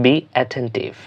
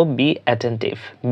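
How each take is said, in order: First: Said in the usual way. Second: Very slow, each syllable drawn out; slow teacher demo, then normal; slow model phrase. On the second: Shown as a demonstration. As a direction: say it slowly so learners copy it. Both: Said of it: "আমরা ইংরেজিতে বলবো".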